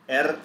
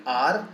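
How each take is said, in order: First: R said as "err", with an e vowel; name R the German way, "err"; R opening on "eh" and ending in a sounded r; German letter name. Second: R said as "ar", with an open ah; name R the English way, "ar"; R opening on a long "ah" vowel; English letter name. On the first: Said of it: "Here we don't have". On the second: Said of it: "in English we call it R". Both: Shown as a demonstration.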